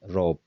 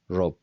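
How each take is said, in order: First: The final vowel is dropped entirely. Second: The same.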